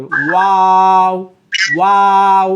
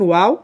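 First: ওয়াও drawn out very slowly with the lips nearly shut; long closed-mouth waw. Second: Said in the usual way. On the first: Shown as a demonstration. Teacher repeating the long ওয়াও for a student to copy. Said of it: "এভাবে পড়তে হবে". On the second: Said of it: "তারপরে লাম, মিম, নুন".

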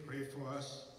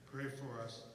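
The two takes are said the same way.

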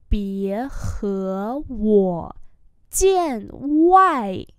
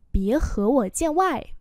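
First: Very slow, syllable by syllable; slow model reading. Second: Said in the usual way. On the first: Shown as a demonstration. Teacher modelling Chinese phrases for learners, slow and drawn-out. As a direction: stretch each syllable out for learners.

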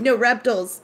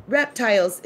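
First: Louder, "reptiles" said REP-tulls; friend's REP-tulls correction. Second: "Reptiles" with full long-i TILES; insistent REP-tiles. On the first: Friend insisting again, "reptiles" louder as REP-tulls. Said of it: "And she said". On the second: Insisting back to the friend, "Reptiles" as REP-tiles. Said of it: "which is how I pronounce it". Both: Retold or imitated.

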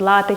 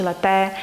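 First: Лате stressed on the first syllable, LA-te. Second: Лате stressed on the final syllable, la-TE; last-syllable stress. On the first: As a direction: hit the "ла" in лате. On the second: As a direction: hit the "те" in лате. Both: Shown as a demonstration. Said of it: "який наголос має бути".

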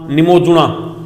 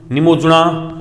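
Both takes have the same delivery.

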